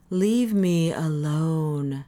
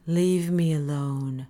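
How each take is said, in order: First: Even slower strained plea; more pleading. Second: Slow weary plea; pleading. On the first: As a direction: stretch it, near breaking. Parisi repeats, more strained. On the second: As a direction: push him off, worn down. Parisi shoves him away. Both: Acted.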